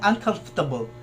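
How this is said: It is said with a posh, fancy accent. "yung mga social na pag-pronounce ba na un"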